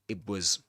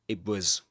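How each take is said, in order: The two takes are said the same way.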